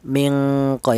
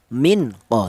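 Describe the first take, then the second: First: The n is hidden into a nasal ng sound. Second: The n is pronounced clearly and separately. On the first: The speaker calls it right. "nun mati ini disamarkan" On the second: The speaker calls it wrong. "jangan dibaca idhar"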